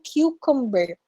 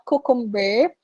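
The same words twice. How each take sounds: First: The first syllable sounds like the letter Q. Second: The first syllable does not sound like Q. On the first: The speaker calls it right. "Q, as in the letter Q" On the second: The speaker calls it wrong. "not cucumber"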